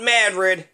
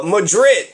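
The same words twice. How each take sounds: First: Madrid said ma-DRID, stress on the end; European pronunciation. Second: Madrid said MAD-rid, stress on first syllable; Kentucky pronunciation. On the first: Contrasting the Spanish city, Madrid stressed on DRID. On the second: Naming the Kentucky town, Madrid stressed on MAD. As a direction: Madrid with a flat a up front. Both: Shown as a demonstration. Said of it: "not Madrid".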